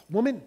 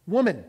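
First: Dismissive, sarcastic "Woman". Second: Firm, respectful "Woman", a bit louder; respectful address. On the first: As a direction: say "Woman" as a mock sarcastic put-down. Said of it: "not saying it in a sarcastic tone". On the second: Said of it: "beginning with a respectful address". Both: Shown as a demonstration.

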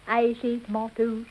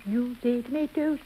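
First: "tomatoes" said as to-MAR-toes; "tomatoes" with a long broad ah. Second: "tomatoes" said as to-MAY-toes; "tomatoes" with the ay vowel. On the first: Showing her own way of saying the word. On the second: Showing how the other person says the word. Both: Shown as a demonstration. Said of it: "It's a different pronunciation".

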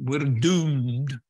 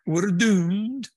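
First: Put-on Scottish accent. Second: High, loud Scottish doom-monger; Scottish accent. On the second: Retold or imitated. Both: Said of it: "in that Scottish accent".

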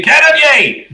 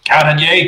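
First: Very high, drawn-out holler; belted call. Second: Raised-pitch first call. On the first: Sun summoning a crewmate below deck, belting it out. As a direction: belt out the name, held high then falling. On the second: Sun summoning a crewmate below deck, calling out. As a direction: call the name with a small lift. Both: Acted. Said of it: "you belt that out".

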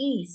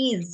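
First: "ইজ" with an unvoiced final s; "ইজ" with s ending. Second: "ইজ" with a voiced final z; "ইজ" with z ending. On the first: Teacher recalls how she said it earlier, "ইজ" with an s ending. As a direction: say "ইজ" ending in a hissed s sound, like "iss". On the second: Teacher corrects the pronunciation for pupils, "ইজ" ending in z. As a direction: say "ইজ" ending in a buzzing z, like "izz". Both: Shown as a demonstration. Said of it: "এটার উচ্চারণটা হবে ইজ".

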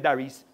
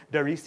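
First: Darius with a put-on Jamaican accent. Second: Said in the usual way. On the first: Shown as a demonstration. Preacher naming the bobsled leader, Jamaican accent. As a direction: say the name the Jamaican way. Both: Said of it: "doesn't say it in Jamaican accent".

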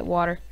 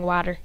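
First: Said in the usual way. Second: "water" said as WAH-ter; "water" with an "ah" first vowel; odd "water" pronunciation. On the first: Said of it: "I actually said water". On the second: Shown as a demonstration. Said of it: "I don't know why I was saying water".

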